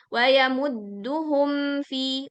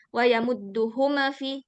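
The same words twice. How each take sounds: First: The m sound flows smoothly without a bounce. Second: The m sound is released with a bounce. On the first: The speaker calls it right. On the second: The speaker calls it wrong.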